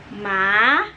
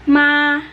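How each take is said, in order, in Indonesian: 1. Nadanya naik dari rendah ke tinggi. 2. Nadanya tetap tinggi dan datar. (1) "dia naik ke atas" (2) "nada yang pertama"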